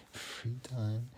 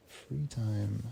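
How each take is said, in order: First: Laughing, ironic with a rising end. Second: Said in the usual way. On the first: Real, not acted. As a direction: scoff at the idea of free time. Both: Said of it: "It wasn't really free".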